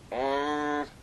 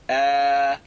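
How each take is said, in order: First: The vowel is nasalized and sounds muffled. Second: The vowel is open and clear, without nasal sound. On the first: The speaker calls it wrong. "the incorrect pronunciation of adding nasalization" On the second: The speaker calls it right. "open their mouth to allow the letters or the sound to emerge clearly"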